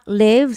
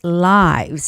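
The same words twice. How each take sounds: First: The vowel sounds like the one in live. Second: The vowel sounds like the one in life. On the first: The speaker calls it wrong. "the word is not lives" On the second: The speaker calls it right. "It's the plural of life"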